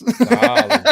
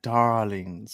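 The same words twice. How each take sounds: First: High, loud, laughing mock purr; breathy vintage purr attempt. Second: Low, drawn-out sultry darlings; breathy vintage purr. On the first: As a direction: overshoot the diva purr for laughs. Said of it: "I can't say it like she does". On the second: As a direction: purr the word like a diva. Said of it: "You've gotta say it like". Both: Shown as a demonstration.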